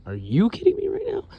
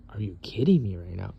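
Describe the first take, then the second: First: Much higher, disbelieving repeat; incredulous. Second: Said in the usual way. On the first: Retold or imitated. Confronting the roommate who spilled the soy sauce, high disbelief. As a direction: shoot the line way up in disbelief. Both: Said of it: "I'm like".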